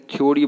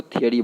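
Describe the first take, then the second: First: थ्योरी as "thyo-ri"; थ्योरी gliding into "yo"; wrong pronunciation. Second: थियरी as "thi-yuh-ri"; थियरी in three light syllables; correct pronunciation. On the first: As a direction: say थ्योरी with a full o. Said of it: "गलत तरीका है". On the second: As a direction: say थियरी without an o. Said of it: "थियरी बोलना है". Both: Shown as a demonstration.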